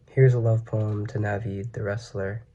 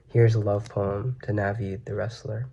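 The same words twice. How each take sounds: The two takes are said the same way.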